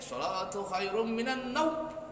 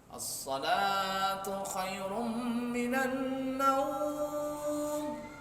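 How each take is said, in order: First: The phrase is said too short and clipped. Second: The phrase is said simply at moderate length. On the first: The speaker calls it wrong. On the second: The speaker calls it right.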